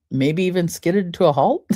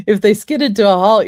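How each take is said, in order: First: Said in the usual way. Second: Skidded punched louder and higher; stress on skidded. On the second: Shown as a demonstration. Coach repeating to listeners, loud stress on skidded. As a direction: hit the word skidded hard, then let it fall.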